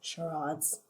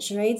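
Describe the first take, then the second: First: The word has a French pronunciation. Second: The word has an English pronunciation.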